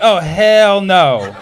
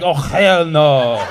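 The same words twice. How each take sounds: First: Slow, drawn-out oh hell no; mock indignant drawl. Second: Put-on slow, drawn-out Arab-accented oh hell no; mock indignant Arab drawl. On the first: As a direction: stretch out the outrage slowly. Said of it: "I was like". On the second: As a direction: let the Arab accent take over, slowly. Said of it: "the Arab came out".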